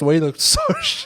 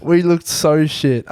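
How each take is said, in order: First: Laughing. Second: Drawn out, slow and flat; slow repeat. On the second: Friend repeating it slowly to the other host, drawn out. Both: Real, not acted.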